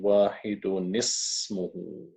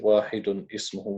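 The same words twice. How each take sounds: First: The two words run straight together. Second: The two words are separated with a break. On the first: The speaker calls it right. "we say ... We have to read straight through" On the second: The speaker calls it wrong. "we can't just say"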